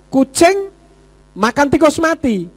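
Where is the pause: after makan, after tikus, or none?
none. It is said as one phrase without a pause. The cat eats a dead rat. "artinya tikus mati dimakan kucing"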